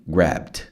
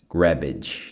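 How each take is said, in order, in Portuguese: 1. O final é um som curto, parecido com T. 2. O final tem uma vogal a mais. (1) "Quase um T" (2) "Cuidado para não falar grabbage"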